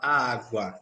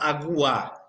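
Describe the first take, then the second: First: The u sound is weak and barely heard. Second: The u sound is pronounced fully and strongly. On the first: The speaker calls it right. "A gente fala água, tá? Esse U eu quase não escuto" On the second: The speaker calls it wrong. "ninguém fala água"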